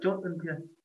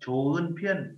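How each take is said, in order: First: The first syllable ends with a t sound. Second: The first syllable ends without a t sound. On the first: The speaker calls it wrong. "chứ không phải là chốt ưng phiên" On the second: The speaker calls it right. "Chố ưng phiên, chứ không phải là chốt ưng phiên"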